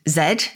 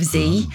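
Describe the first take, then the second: First: The letter name is said the Canadian way. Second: The letter name is said the American way. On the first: This is the name Canadians use for the letter. "They call the letter Z" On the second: This is the name Americans use for the letter. "instead of Z"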